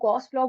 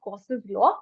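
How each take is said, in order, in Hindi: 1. 'law' से पहले के नाम में एक शब्दांश है। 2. 'law' से पहले के नाम में दो शब्दांश हैं। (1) "कुछ लोग इसको गॉस लॉ बोलते हैं" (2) "I usually pronounce it as गॉसेस law"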